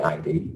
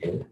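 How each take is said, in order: First: It is spelled out as two letters. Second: It is said as one short word. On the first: The speaker calls it wrong. "it's not the I D" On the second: The speaker calls it right. "it's pronounced the id"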